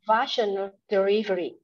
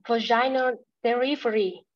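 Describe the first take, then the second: First: "Vaginal" as VASH-uh-nul; stress on first syllable. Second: "vaginal" as vuh-JAI-nul; learner's attempt, "vaginal" said va-ZHAI-nut; misplaced stress. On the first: Shown as a demonstration. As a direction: lean on VA in "Vaginal delivery". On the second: Real, not acted. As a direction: stress the second syllable of "vaginal". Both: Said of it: "the stress is on the first syllable".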